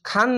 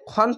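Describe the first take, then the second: First: The vowel is an open, light aa sound. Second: The vowel is a rounded, heavy o sound. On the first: The speaker calls it wrong. "খান না বলে" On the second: The speaker calls it right. "খন বলতে হবে"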